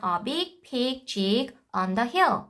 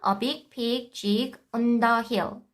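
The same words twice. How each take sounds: First: "on the hill" run together as one phrase; group "on the hill" smoothly as a chunk; chunked reading. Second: "A big pig jig on the hill" read slowly, every word cut apart. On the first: Teacher showing how kids should read in chunks. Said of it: "On the hill은 덩어리이기 때문에". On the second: Teacher showing choppy word-by-word decoding. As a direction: chop the sentence into single words, slowly. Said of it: "이렇게 읽는 게 좋을까". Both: Shown as a demonstration.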